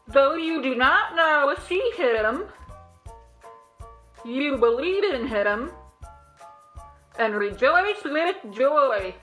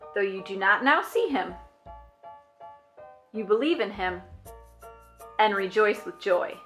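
First: It is said in a silly underwater voice. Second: It is said in a normal voice.

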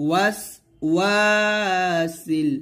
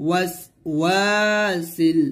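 Both takes have the same delivery.

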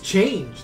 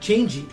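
First: It is one syllable with a silent final e. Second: It ends with an extra 'ee' syllable. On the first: The speaker calls it right. "It's change" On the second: The speaker calls it wrong. "not changey"

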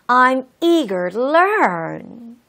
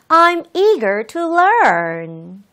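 First: The t in 'to' is soft and flapped. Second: The t in 'to' is crisp and strong. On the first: "한 번은 좀 굴려서 해보도록 할게요. ... 부드럽게요" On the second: "T 발음을 한 번은 강하게"

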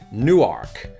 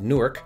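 First: Both syllables are stressed, including "ark". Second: Only the first syllable is stressed. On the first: This is the Delaware pronunciation. "there's still an emphasis on that first syllable, but they also emphasize the word ark" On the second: This is the New Jersey pronunciation. "most people in New Jersey would pronounce it Newark"

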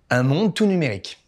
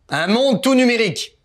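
First: The phrase is said at ordinary speaking volume. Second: The phrase is said loudly, near a shout. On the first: The speaker calls it right. "parle normalement" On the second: The speaker calls it wrong. "Plus fort"

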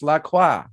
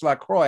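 First: La Croix is pronounced in a French manner. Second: La Croix is pronounced in an English manner. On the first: The speaker calls it right. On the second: The speaker calls it wrong.

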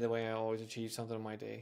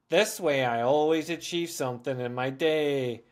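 First: It is read at an ordinary, normal reading pace. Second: It is read slowly and deliberately, like a child. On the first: The words pass without much notice. The speaker calls it wrong. "if I just read that normally out loud" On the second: The reader hears and notices every word. The speaker calls it right. "read it like an 8-year-old would be reading to their parents"

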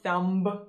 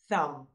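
First: The word ends with an audible b sound. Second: The word ends with an m sound. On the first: The speaker calls it wrong. "there is no b sound. So it's not thumb" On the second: The speaker calls it right. "no, it's thumb"

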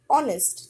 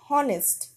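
First: The word starts with a vowel, no h sound. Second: The word starts with an audible h sound. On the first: The speaker calls it right. "H is consonant, but we use as a silent. We say honest" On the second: The speaker calls it wrong. "not honest"

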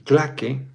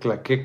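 First: The stress is on the first syllable. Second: The stress is on the last syllable. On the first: It names a group paid to applaud. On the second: It names a modern dance.

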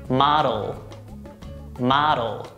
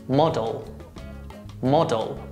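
No difference in how they are said.

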